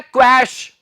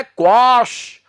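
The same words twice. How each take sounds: First: क्वैश with the vowel of "cash"; the common slip क्वैश, open "ae" vowel; wrong pronunciation. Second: क्वाश with a long "aa" vowel; correct pronunciation. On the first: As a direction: say क्वैश as "kwash", rhyming with "cash". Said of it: "बहुत से लोग इसे बोल देते हैं". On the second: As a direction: say क्वाश as "kwaash". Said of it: "इसका उच्चारण है". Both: Shown as a demonstration.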